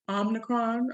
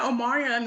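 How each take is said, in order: First: The word is said as Omicron. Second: The word is said like the name Omarion. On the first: The speaker calls it right. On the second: The speaker calls it wrong.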